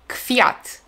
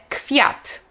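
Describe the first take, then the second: The two takes are said the same way.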